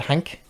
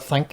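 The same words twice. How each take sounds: First: "Hank" for think, with an H sound. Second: Said in the usual way. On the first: Retold or imitated. Imitating a Northern Irish boy, THINK pronounced "Hank". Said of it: "he said Hank". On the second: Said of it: "instead of think".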